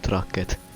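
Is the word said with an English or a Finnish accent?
Finnish. The word is said with a Finnish accent.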